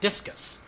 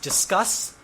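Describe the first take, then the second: First: It sounds like the word discus. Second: It sounds like the word discuss. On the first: The speaker calls it wrong. "not discus" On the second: The speaker calls it right. "It's pronounced discuss"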